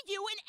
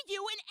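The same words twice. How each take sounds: Both takes have the same delivery.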